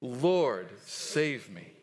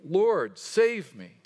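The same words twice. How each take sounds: First: Measured, lower recitation, dropping at the end; leading group recitation. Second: Louder, raised-pitch plea for rescue; crying out. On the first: Shown as a demonstration. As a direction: say it evenly so everyone can join. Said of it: "Let's say that together". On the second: A narrator's reading. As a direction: cry out to the Lord while reading aloud. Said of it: "cried out".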